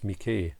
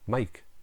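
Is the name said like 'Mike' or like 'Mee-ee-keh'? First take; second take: Mee-ee-keh; Mike. First: The name is said with a long vowel, 'Mee-ee-keh'. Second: The name is said as one syllable, like 'Mike'. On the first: "But obviously it's Miike" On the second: "I always think that I say that wrong"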